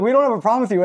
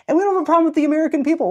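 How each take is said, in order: First: Slightly higher, earnest reassurance; earnest American reassuring a Canadian visitor; sincere apologetic American. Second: Much higher, fast and eager reply; Canadian envoy eagerly reassuring friendly Americans; Canadian representative. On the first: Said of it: "they're like". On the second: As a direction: chirp it back like an eager official envoy. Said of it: "I got to be the Canadian representative, be like". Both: Retold or imitated.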